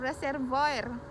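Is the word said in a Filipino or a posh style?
Filipino. It is said in a Filipino accent, strong R. "Filipino style, ... Yung R talagang ma-pronounce"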